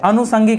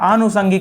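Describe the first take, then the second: First: The first vowel is a short a. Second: The first vowel is a long aa. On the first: The speaker calls it wrong. "अनुषंगिक नहीं होता है" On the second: The speaker calls it right. "वहां आनु हो जाता है"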